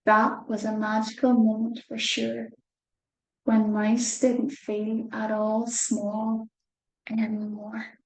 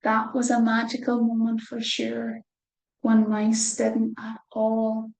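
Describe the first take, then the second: First: Slower, careful reread. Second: Said in the usual way. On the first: Shown as a demonstration. Reader rereads the line for children, a wee bit slower. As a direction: read it again, slowly. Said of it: "a wee bit slower this time". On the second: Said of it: "'cause I don't think I had it right".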